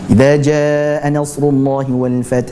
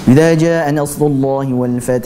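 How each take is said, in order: First: The vowel in jaa is held long. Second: The vowel in jaa is short. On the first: The speaker calls it right. "dia tetap memanjangkan huruf jimnya" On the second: The speaker calls it wrong. "Itu adalah contoh bacaan yang salah"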